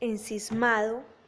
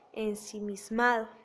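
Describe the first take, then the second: First: A syllable in the middle is dropped. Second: Every syllable in the middle is pronounced. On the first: The speaker calls it wrong. "pérdida de fonemas y aún de la sílaba en el interior" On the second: The speaker calls it right. "se debe de decir ensimismado"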